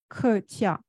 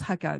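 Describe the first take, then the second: First: The word is said with Mandarin pronunciation. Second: The word is said with Hakka pronunciation. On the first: "en mandarin, ça se dit kretia" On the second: "en Hakka, ça se prononce Hakka"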